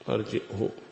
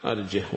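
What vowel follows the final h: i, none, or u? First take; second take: u; none. First: A glottal stop comes first; the final h takes u. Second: No glottal stop; the final h takes no vowel. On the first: "بالهمزة وضم الهاء" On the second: "ويسكنها عاصم وحمزة"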